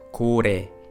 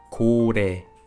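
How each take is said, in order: The two takes are said the same way.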